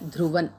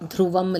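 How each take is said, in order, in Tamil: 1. சொல் n ஒலியில் முடிகிறது. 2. சொல் m ஒலியில் முடிகிறது. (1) "அனுஸ்வரா வந்து என்ன ... த்ருவன்" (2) "த்ருவம் இல்லை"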